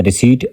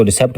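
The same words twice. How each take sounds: First: रिसीट with a silent p, re-SEET; correct pronunciation. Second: रिसेप्ट with the p sounded, re-SEPT; wrong pronunciation. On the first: Teacher giving students the right reading, silent p. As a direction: say रिसीट cleanly, no p sound. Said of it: "दुरुस्त इसकी pronunciation है रिसीट". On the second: Teacher showing students the wrong reading, p pronounced. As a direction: demo the common mistake रिसेप्ट, voicing the p. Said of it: "कुछ लोग इसको रिसेप्ट पढ़ लेते हैं". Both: Shown as a demonstration.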